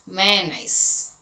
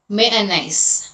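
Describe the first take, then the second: No difference in how they are said.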